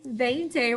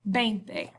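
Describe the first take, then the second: First: The word begins with a V sound. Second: The word begins with a B sound. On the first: The speaker calls it wrong. "instead of veinte" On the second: The speaker calls it right. "it's pronounced with a B"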